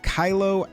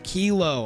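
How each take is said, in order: First: It sounds like the Star Wars character's name. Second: It does not sound like the Star Wars name. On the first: "I've been pronouncing it Kylo like the Star Wars character" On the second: "or Kilo"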